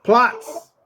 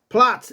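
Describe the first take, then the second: First: Firm, raised order like a drill sergeant; higher, authoritative bark of command. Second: Said in the usual way. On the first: Shown as a demonstration. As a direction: order the dog down. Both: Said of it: "say it with a authoritative voice".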